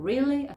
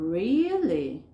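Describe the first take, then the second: First: Said in the usual way. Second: "really" drawn out with a big pitch swoop; long, accented "really"; slowed, stressed. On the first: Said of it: "Si yo digo". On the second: Shown as a demonstration. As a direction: stretch "really", loud and surprised. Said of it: "lo estoy haciendo más despacito".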